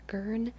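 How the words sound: The R is strongly sounded, American style. "if I were speaking in an American accent"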